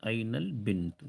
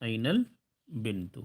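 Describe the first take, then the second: First: Said in the usual way. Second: أين البنت slowed and drawn out; slow model repeat. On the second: Shown as a demonstration. Teacher repeating for students, slow and clear. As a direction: say it slowly for learners to copy. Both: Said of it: "girl کو کیا بولیں گے".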